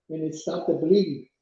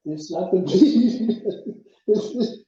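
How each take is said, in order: First: Said in the usual way. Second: A laugh breaking up "It stopped the bleeding"; amused retelling with a laugh; laughing through it. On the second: Real, not acted. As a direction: repeat it, cracking up mid-line.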